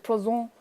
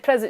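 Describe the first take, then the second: First: The word has a French pronunciation. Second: The word has an English pronunciation. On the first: The speaker calls it right. "you say présent" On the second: The speaker calls it wrong. "you don't say present"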